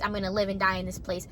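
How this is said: It is said in a sad, gloomy tone. This is how emo music sees it. "sad face"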